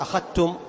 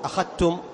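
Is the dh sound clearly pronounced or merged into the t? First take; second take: merged; merged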